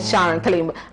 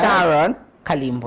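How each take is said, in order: First: The name is said quickly and rushed. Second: The name is said slowly and carefully. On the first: The speaker calls it wrong. "Not Sharon Kalimbola. Like, why are you so fast?" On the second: The speaker calls it right. "say it slowly"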